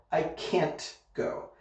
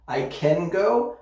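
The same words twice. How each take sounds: First: CAN'T slowly, with a crisp final T, then a soft go; emphasis on the T. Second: CAN with a firm C, voice lifting on go; emphasis on the C. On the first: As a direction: land on the T ending "can't", then pause. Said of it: "put the emphasis on the T". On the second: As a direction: hit the C at the start of "can". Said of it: "the emphasis goes on the C". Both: Shown as a demonstration.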